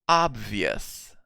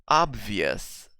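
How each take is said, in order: The two takes are said the same way.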